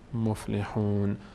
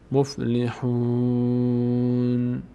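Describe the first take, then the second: First: The word ends on a bare n sound. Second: The final n is followed by a vowel. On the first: The reciter stops after the word. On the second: The word is joined to what follows.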